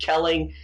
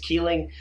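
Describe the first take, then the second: First: The first vowel is a short 'e' sound. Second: The first vowel is a long 'ee' sound. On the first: The speaker calls it wrong. "I've been saying it" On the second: The speaker calls it right. "the per- correct pronunciation is Keeling"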